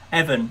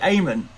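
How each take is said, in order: First: The middle consonant is a V sound. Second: The middle consonant is not a V sound. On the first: The speaker calls it right. "the M H in Neve is a V sound" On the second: The speaker calls it wrong. "What did I say?"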